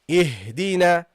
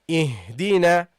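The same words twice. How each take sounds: No difference in how they are said.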